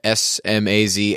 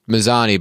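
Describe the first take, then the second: First: The name begins with an S sound. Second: The name begins with an M sound. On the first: "you can find me at Smazany" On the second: "if I pronounced it Mazzani"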